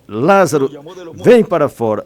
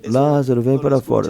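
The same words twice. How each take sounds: First: It is said loudly and forcefully. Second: It is said softly and gently.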